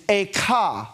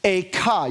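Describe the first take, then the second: First: Echa said as eh-KHA with a throaty kh; Hebrew word Echa. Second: Echa, short and clear, stress on the second syllable; Hebrew word Echa. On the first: Rabbi teaching the congregation the Hebrew word Echa. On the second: Rabbi models Echa for the congregation to repeat. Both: Shown as a demonstration. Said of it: "You guys try that on".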